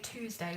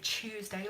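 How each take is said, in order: First: The word starts with a clear 't' sound. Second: The word starts with a 'ch' sound. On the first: "I say Tuesday like two" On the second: "like you're chewing a chocolate bar"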